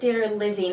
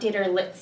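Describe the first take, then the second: First: The ending has a plain z sound, 'lizzy'. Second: The ending has a ts sound, 'litsy'. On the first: This is how the author says it. The speaker calls it right. "I think he pronounces it Ditterlizzi" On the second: This is how it looks like it should be said. The speaker calls it wrong. "I would say Itzy because it's like pizza"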